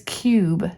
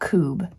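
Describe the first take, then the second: First: The vowel is said as 'yoo' with a glide. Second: The vowel is said as a plain 'oo'. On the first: The speaker calls it right. "It is cube" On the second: The speaker calls it wrong. "not coob"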